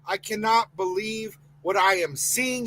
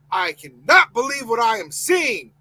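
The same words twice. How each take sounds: First: Said in the usual way. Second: Outraged shout, the word cannot hit hardest. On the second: Real, not acted. Host furious at the coach news, shouting. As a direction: let it burst out as a real shout. Same line, now shouted.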